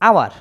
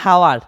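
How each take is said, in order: First: The word begins with a vowel sound. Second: The word begins with an h sound. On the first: The speaker calls it right. "ও হইতেছে" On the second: The speaker calls it wrong. "আওয়ার না হাওয়ার"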